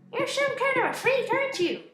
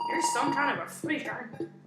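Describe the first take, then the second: First: It is said in a put-on voice. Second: It is said in a natural voice.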